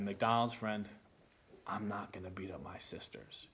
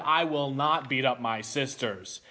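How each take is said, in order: First: Much softer, lower, near-whispered no; hushed, lowered refusal; quiet refusal. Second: Said in the usual way. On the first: Retold or imitated. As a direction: say it low and hushed, standing firm. Final refusal, retold.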